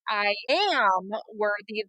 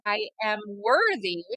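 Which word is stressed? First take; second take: am; worthy. First: The stress is on am. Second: The stress is on worthy, not am.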